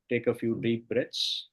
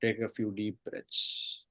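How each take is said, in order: First: Said in the usual way. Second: Slow, softer deep-breath cue; soft spa whisper. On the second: Acted. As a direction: draw the words out, hushed. Repeat in meditation.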